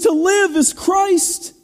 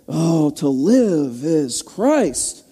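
First: It sounds eager and passionate. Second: It sounds weary, like a burden.

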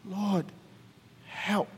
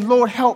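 First: It is said in a weak, faint voice. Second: It is said in a normal, stronger voice.

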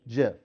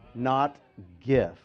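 First: It starts with a soft j sound. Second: It starts with a hard g sound. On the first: The speaker calls it right. "as in like the peanut butter" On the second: The speaker calls it wrong.

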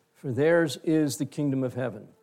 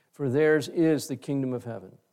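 The two takes are said the same way.

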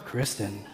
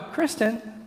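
First: The name is said in a suggestive, flirtatious tone. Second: The name is said in a coaxing, pleading tone. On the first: The speaker is hinting at something private. "That's another sermon for another day" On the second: The speaker wants something fetched without getting up. "That means I want her to go get me something from the kitchen and I don't want to get up"

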